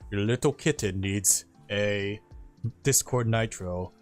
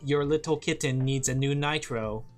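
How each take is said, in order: First: It is said in a deeper chest voice. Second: It is said in a light, high voice.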